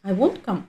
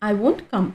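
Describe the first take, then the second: Both takes have the same delivery.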